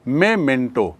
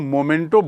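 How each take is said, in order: First: The first syllable is said with an 'eh' vowel. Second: The first syllable is said with an 'oh' vowel. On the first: The speaker calls it right. "ये क्या है? मेमेंटो।" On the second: The speaker calls it wrong. "कई लोग उसको मोमेंटो बोलते हैं, जो गलत है।"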